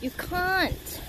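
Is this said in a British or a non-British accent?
British. It is said in a put-on British accent. "In British accent"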